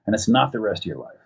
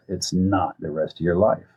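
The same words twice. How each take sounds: First: Said in the usual way. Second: Slow, with weight on "not"; "not" held long and deliberate, the rest measured; emphatic repeat. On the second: Real, not acted. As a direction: stretch out "not" to drive it home.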